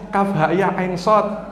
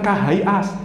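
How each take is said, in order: First: Each letter is said separately by its name. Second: The letters are blended into one short word. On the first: The speaker calls it right. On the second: The speaker calls it wrong.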